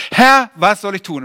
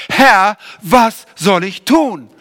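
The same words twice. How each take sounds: First: Earnest plea. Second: Louder, drawn-out plea; slow earnest plea. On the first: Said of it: "was Paulus gesagt hat". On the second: Paulus on the road to Damaskus, slow and louder plea. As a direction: stretch „Herr, was soll ich tun?“ slowly and louder. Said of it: "er hat als erstes gesagt". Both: Retold or imitated.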